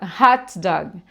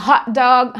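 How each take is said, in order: First: The T in hot is released with a strong hiss. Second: The T in hot is cut off, barely heard. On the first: The speaker calls it wrong. "tendemos a pronunciar o T todinho" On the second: The speaker calls it right. "A gente não fala o T propriamente"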